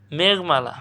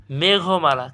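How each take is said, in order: First: মেঘমালা run together as "megh-mala"; as written. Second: মেঘমালা as "me-gho-mala"; correct pronunciation. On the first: Teacher reading out the question word, spelling pronunciation. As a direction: say মেঘমালা with no vowel after gh. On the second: Teacher showing the correct sound to students, careful pronunciation. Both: Shown as a demonstration. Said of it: "সঠিক উচ্চারণ কী হবে?".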